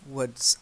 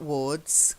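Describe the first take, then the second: First: The vowel is a short 'oo' sound. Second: The vowel is a long 'or' sound. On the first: The speaker calls it right. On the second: The speaker calls it wrong. "not wards"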